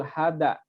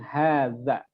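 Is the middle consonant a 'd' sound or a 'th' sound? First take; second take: d; th. First: The middle consonant is a plain d sound. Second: The middle consonant is a soft th sound. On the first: The speaker calls it wrong. "La la takul hada" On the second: The speaker calls it right. "lakin hadza"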